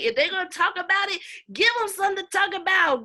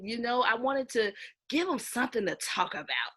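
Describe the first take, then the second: First: Louder, higher and faster, hammering give; emphatic punch. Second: Said in the usual way. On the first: Real, not acted. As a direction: drive the motto home with force. Punchy repeat of her motto.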